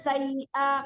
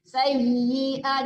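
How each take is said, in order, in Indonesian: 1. Bunyi y yang bertasydid dipotong pendek. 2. Bunyi y yang bertasydid ditahan dengan jelas. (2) "Setiap ia bertasdid diperjelas harakat hurufnya"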